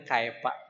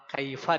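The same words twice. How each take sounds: First: The middle consonant is a p sound. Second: The middle consonant is an f sound. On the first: The speaker calls it wrong. "Banyak yang pak dei" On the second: The speaker calls it right. "ketika membaca huruf fa"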